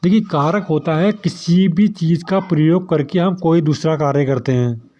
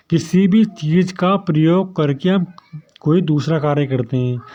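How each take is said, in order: First: Said in the usual way. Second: Slower, with the stress on "भी"; slow, deliberate. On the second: Shown as a demonstration. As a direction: spell it out so students catch it. (धीरे और साफ़ दोहराना) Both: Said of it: "देखिए, क्या बोल रहा हूँ मैं".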